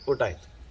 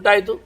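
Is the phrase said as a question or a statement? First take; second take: statement; question. First: It is said with a statement tune. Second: It is said with a questioning tune. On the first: The speaker answers that the meal is done. "ಎರಡನೇದು ಉತ್ತರ" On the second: The speaker asks whether the meal is done. "ಮೊದಲದ್ದು ಪ್ರಶ್ನೆ"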